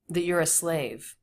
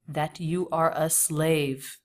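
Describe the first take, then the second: First: 'You are' is contracted and reduced to 'you're'. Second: Every word is said fully, without contraction. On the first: This is ordinary casual speech. "Conversationally, it would be like this" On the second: This is a deliberate, unusual delivery. "but instead it was this"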